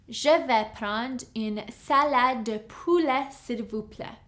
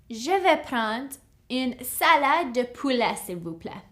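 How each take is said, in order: Both takes have the same delivery.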